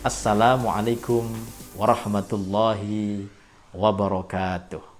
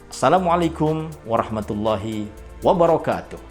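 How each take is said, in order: First: The greeting is said softly and gently. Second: The greeting is said quickly and briskly. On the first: It suits older people. "bisa lebih lembut lagi" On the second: It suits teenagers and young adults. "mungkin bisa lebih cepat"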